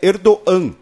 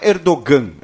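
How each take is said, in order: First: The g in the middle is silent. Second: The g in the middle is pronounced. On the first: The speaker calls it right. "o G com circunflexo, em turco, ele tem uma pronúncia muda" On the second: The speaker calls it wrong. "Não é Erdogan"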